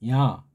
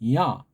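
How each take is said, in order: First: It is said plainly, without lifted resonance. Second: It resonates high, behind the nose. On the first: The speaker calls it wrong. "그냥 이걸 야라고 야라고 하지 않고" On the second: The speaker calls it right. "그걸 좀 위로 소리를 띄우듯이 코 뒤로 입안에 공간을 소리 올리듯이"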